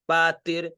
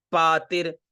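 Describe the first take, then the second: No difference in how they are said.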